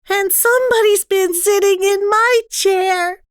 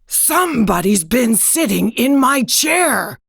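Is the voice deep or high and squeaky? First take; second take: high and squeaky; deep. First: It is said in a shrill, squeaky voice. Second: It is said in a deep, growling voice.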